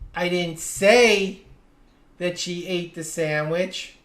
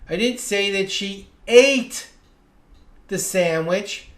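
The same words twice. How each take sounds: First: The stress falls on the word "say". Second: The stress falls on the word "ate". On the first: It was implied but never actually said. "I may have implied it, but I never actually said it" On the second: She did something else with the sandwich. "Maybe she juggled it or gave it to someone"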